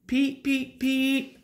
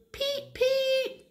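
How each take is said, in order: First: High peeps, moderately raised; three short engine toots, pitched up; Henry's whistle. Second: Very high piping peeps; Edward's whistle. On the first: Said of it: "said Henry". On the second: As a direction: squeal like a small engine whistle. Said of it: "said Edward". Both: A narrator's reading.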